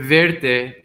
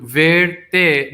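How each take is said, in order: First: Said in the usual way. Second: "verte" pulled apart into two slow syllables; word split in two. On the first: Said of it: "this first word, verte, in Spanish". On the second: Shown as a demonstration. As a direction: say "verte" as two separate words, "ver" and "te". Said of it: "if you split that word in two".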